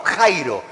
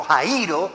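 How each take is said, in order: First: "Jairo" stressed on the first syllable, JAI-ro; wrong stress. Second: "Jairo" in three syllables, ja-Í-ro, stressed on i; accent on I. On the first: Preacher shows congregation the mistaken reading, "Jairo" stressed JAI-ro. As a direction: say "Jairo" as two syllables, ai as diphthong. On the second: Preacher corrects the Greek term for congregation, "Jairo" stressed ja-Í-ro. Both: Shown as a demonstration. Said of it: "con acento en la I".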